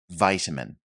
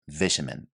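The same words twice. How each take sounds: First: It is said in an American accent. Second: It is said in a British accent. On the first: "in American English, it is pronounced vitamin" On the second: "I'm saying it in the British English. This is how it is pronounced there"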